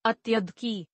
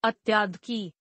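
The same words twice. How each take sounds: First: Said in the usual way. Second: अत्याध की with a long aa after tya; mispronounced. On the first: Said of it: "शुद्ध". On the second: Shown as a demonstration. Teacher showing students a common error, mispronounced with long aa. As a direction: stretch the vowel in अत्याध की to "atyaadhik". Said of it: "अशुद्ध".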